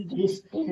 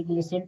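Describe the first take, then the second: First: "ग्लिस्टेन" with an audible t; T sounded. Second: "ग्लिसेन" with s and no t; silent-t reading of "ग्लिसेन". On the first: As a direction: say "ग्लिस्टेन" with the st cluster. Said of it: "ग्लिस्टेन नहीं". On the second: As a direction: say "ग्लिसेन", s straight into -en. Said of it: "इसे ग्लिसेन पढ़ेंगे". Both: Shown as a demonstration.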